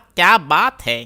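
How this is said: It sounds like an admiring exclamation. The speaker compliments how someone looks. "Complementary वाली, जैसे बढ़िया लग रहे हैं"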